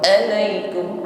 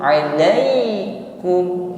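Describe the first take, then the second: First: The ain sound is harsh and forced. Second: The ain sound is soft and light. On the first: The speaker calls it wrong. "bukan alaikum" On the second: The speaker calls it right. "huruf ain lunak saja"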